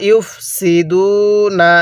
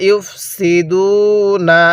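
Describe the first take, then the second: Both takes have the same delivery.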